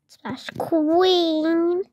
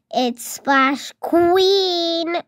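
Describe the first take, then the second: First: Said in the usual way. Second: It's Splash Queen stretched very slowly, Queen held long; proudly dragging out Queen; drawn-out name. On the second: Pretend. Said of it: "My name is not Splash".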